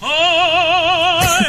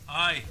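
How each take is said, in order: First: It is said in a grand operatic voice. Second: It is said in a plain speaking voice.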